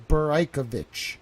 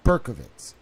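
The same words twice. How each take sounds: First: "Beraikovich" as bur-EYE-kuh-vich; "Beraikovich" with an added "eye" and a "ch" ending; corrected pronunciation. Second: "Berkovitz" as BUR-kuh-vits; "Berkovitz" in three syllables, ending in "ts"; rejected pronunciation. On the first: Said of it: "It's Beraikovich". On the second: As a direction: say "Berkovitz" with no "eye" sound. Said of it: "But it's not". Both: Shown as a demonstration.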